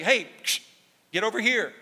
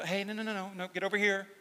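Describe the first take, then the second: First: Louder, higher sharp shepherd's call; a firm, louder "get over here" like a correcting shepherd. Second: Gentle coaxing. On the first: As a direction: prod the sheep with your voice. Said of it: "the rod was meant to prod". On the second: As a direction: coax the sheep back gently. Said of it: "the staff was more gentle". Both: Retold or imitated.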